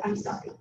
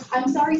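First: Soft, sheepish little "I'm sorry" as a hello; apologetic Minnesotan greeting. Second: Said in the usual way. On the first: Retold or imitated. Minnesotan greeting a seat neighbour with a quiet apology. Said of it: "what every classic Minnesotan would do is lead with". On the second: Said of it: "seems to be the new "hi".

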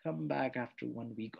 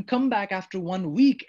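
First: Softer, lower echo of the line; mock repeat. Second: Louder, dismissive brush-off; curt dismissal. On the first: Shown as a demonstration. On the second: Acted. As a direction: send them away curtly. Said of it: "I've said to him".

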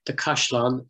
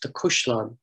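First: Cashlon with an open A; Cashlon, first vowel A, not U; standard form. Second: Cushlon with U as in "cushion"; Cushlon, first vowel U, not A; local pronunciation. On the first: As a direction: say Cashlon as "KASH-lawn". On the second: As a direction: say Cushlon as "KUUSH-lawn". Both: Shown as a demonstration. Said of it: "is pronounced the Cushlon locally".

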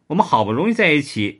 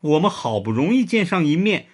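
First: Quick sulky whine; mildly pouting girlfriend complaint. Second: Mild sorrowful lament; sadly. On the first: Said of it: "周志英嘟着嘴说". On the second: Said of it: "伤心地说". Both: A narrator's reading.

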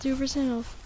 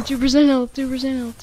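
First: Said in the usual way. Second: Laughing. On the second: Real, not acted. Low health alarm.

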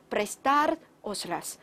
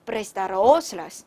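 First: "prestar os las" stressed on "tar", "os las" lighter; stress on verb's "tar". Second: "prestar os las" run together, stressed on "os"; stress shifted onto "os". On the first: Teacher making the verb audible, "prestar os las" stressed on "tar". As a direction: hit "tar" in "prestar os las", then ease off. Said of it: "这样是不是这个动词就听出来了". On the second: Teacher showing the wrong stress, "prestar os las" stressed on "os". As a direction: punch "os" in "prestar os las", not "tar". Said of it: "重音在倒数第二音节". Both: Shown as a demonstration.

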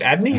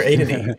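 First: "Adney" opening with the A of "add"; short-A pronunciation. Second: "Adney" opening with the A of "aid"; long-A pronunciation. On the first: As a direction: say "Adney" as AD-nee. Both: Shown as a demonstration. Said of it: "don't even know how to say".

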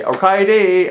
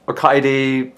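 First: "Okaeri" said as o-kai-ri, rising then falling; "Okaeri" in careful Japanese; Japanese word. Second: Said in the usual way. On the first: Shown as a demonstration. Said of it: "Okaeri" kinda means, like, "I'm home". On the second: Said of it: "Okaeri" kinda means".

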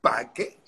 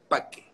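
First: "Parque" with the R swallowed, k stretched; Cuban accent parque. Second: "Parque" without the R, doubled k: "pakke"; Cuban accent parque. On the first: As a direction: drop the R in "Parque", lean on the k. ("Parque" a lo cubano, sin R) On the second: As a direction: say "Parque" Cuban-style, R dropped and k held. ("Parque" sin R y con la k doble, "pakke") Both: Shown as a demonstration. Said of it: "quita la R y repite dos veces la Q".

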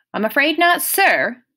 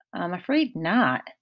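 First: Higher, louder, pointed "sir"; testy correction stressing "sir" at the end. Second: Said in the usual way. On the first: A narrator's reading. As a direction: correct him, landing hard on "sir". Correcting him to add sir.

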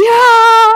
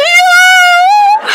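First: High, loud joyful yeah. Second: Much higher, loud joyous shout; shouted yeah. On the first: Her friend agreeing again, a loud happy yeah. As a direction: say it firmly and happily. Repeated answer. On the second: Her friend agreeing, a loud high joyful shout. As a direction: yell it in delight. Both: Retold or imitated.

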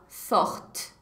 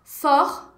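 First: Forte with a faint, dry T at the end; light final T. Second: Said in the usual way. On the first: Shown as a demonstration. Teacher showing students the feminine form, faint final T. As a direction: say forte, barely touching the final T, softly. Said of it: "o T é bem fraquinho". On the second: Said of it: "eu vou pronunciar o T".

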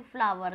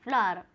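First: फ्लावर said fully as "flaa-war" with a clear final r; over-pronounce फ्लावर, ending in r; wrong way. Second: फ्लावर said as a short "flaar" with the w dropped; correct way. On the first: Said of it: "लेकिन ऐसा नहीं बोलते हैं". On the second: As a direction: clip फ्लावर to "flaar", teaching it. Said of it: "सही English आप बोलिए तो सही इंग्लिश है". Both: Shown as a demonstration.

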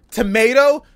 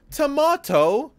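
First: Tomato with a long AY, to-MAY-to; American tomato. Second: Tomato with a broad AH, to-MAH-to, slower; British tomato. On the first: Streamer giving chat another example word, to-MAY-to. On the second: Streamer giving chat another example word, slow to-MAH-to. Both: Shown as a demonstration. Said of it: "what's that other word that people say differently?".

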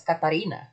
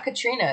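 First: Katarina with four syllables, ka-ta-REE-na; correct name. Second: Katrina said as three syllables, Ka-TREE-na; the mistaken Katrina, short and quick; wrong name. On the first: Streamer teaching viewers the artist's name, correct Katarina. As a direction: Katarina spelled out a little lower and softer. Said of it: "That's how you say it". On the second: Streamer correcting the artist's name, wrong version first, Katrina. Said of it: "It's not Katrina". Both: Shown as a demonstration.

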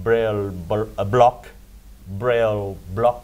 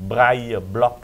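First: Braille said as English brail, slowly; slow braille block in the English way; English reading. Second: Braille said brai, the French way; French pronunciation. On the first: Host shows the Thai habit of saying braille block the English way. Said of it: "มันผิดตั้งแต่สมัยรัชกาลที่สอง". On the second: Host gives the correct name for the tactile paving. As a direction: Braille Block with French brai, rising at the end. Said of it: "มันก็ต้องเป็น". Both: Shown as a demonstration.

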